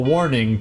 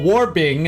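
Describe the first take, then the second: First: The middle consonant is an N sound. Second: The middle consonant is a B sound. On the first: This is the normal form of the word. The speaker calls it right. "instead of" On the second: This imitates the character's faulty speech. The speaker calls it wrong. "He adds a lot of B's"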